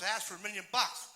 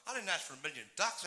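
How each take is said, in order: First: "bucks" punched as the correction; indignant correction landing on "bucks"; stress on bucks. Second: "ducks" set up for contrast; complaint pointed at the word "ducks"; stress on ducks. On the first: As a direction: hit the word "bucks" hard. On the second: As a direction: lean on "ducks" as the wrong thing. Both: Acted. Corrects misheard word, ducks versus bucks.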